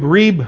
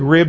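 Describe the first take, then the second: First: It is said with a long Southern-style vowel. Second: It is said with a plain, short vowel.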